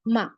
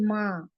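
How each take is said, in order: First: The vowel is plain, with no nasal sound. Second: The vowel is drawn out with a hidden nasal sound. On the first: The speaker calls it wrong. "मीम, अलिफ, माँ, ऐसे नहीं लिख रहे हम" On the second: The speaker calls it right. "नाक में छुपाई जा रही है"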